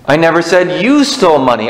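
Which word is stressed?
you. The stress is on "you".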